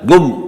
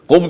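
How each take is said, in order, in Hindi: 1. शब्द की शुरुआत एक कड़ी G ध्वनि से होती है। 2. शब्द की शुरुआत एक गहरी, गले से निकलने वाली Q ध्वनि से होती है। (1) "वो काफ को गाफ पढ़ते हैं" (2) "कुम की बजाय"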